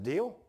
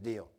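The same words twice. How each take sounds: First: "Deal?" raised high at the end; questioning DEAL. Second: "Deal." with a falling tune; accepting DEAL. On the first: Preacher proposes bargain to boss, "Deal?" rising. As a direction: offer "Deal?" with a rising tune. Retold offer put as question. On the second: Boss accepts preacher's bargain, "Deal." falling. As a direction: settle "Deal." as a statement, falling. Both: Retold or imitated.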